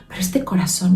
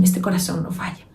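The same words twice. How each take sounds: First: Said in the usual way. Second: Whispered, secret-sharing. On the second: Acted. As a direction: lean in and whisper it. Intimate point about the heart. (susurrado, íntimo)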